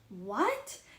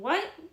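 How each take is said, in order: First: It sounds impressed. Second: It sounds stern.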